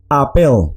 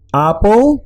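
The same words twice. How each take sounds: First: "apel" as ah-PEL, second syllable stressed, falling tune; acento final. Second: "Apple" as AH-pol, first syllable stressed, rising higher at the end; acento inicial. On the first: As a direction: model "apel" with a clear stressed E, falling at the end. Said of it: "esta es apel". ("apel" como a-PÉL, con final descendente) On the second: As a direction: model Dutch "Apple" with a weak second vowel, higher and rising. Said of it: "esta es apple". ("Apple" como Á-pol, más agudo y con final ascendente) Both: Shown as a demonstration.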